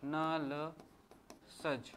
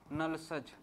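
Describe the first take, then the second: First: नलसज stretched out very slowly, syllable by syllable; slow memory trick. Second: Said in the usual way. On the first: Shown as a demonstration. Teacher spells out the memory trick for students, very slow and drawn out. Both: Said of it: "एक trick बता रहा हूँ".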